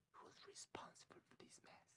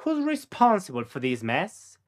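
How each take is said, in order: First: Faint whispered "Who's responsible for this mess?"; voiceless, barely audible repeat. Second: Said in the usual way. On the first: Shown as a demonstration. Teacher whispering the question back for the learner. Model sentence then whispered echo.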